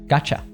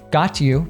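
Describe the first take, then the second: First: The t and y merge into ch. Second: The t and y stay separate sounds.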